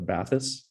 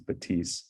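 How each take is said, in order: First: The name is read with English spelling sounds. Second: The name is said with French sounds. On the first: The speaker calls it wrong. "just read the spelling and think it's the Bathys" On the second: The speaker calls it right. "the French pronunciation is"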